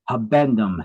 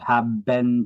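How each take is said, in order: First: The word is said with a clear b sound. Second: The word is said like 'have been'. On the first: The speaker calls it right. "the habendum clause" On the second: The speaker calls it wrong. "I just mispronounce it"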